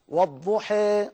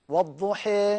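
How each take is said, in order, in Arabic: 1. الحركة النهائية تقع في منتصف الطريق بين 'a' و'ee'. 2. الحركة النهائية تقع في منتصف الطريق بين 'a' و'ee'.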